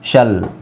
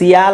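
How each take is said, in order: First: It is pronounced as one syllable, shal. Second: It is pronounced as two syllables, see-al. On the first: The speaker calls it right. "ಸಿ ಐ ಎ ಎಲ್ ಶಲ್" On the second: The speaker calls it wrong. "ಸಿಯಾಲ್ ಅಂತ ಓದಬಾರ್ದು"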